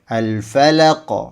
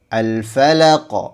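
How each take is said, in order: No difference in how they are said.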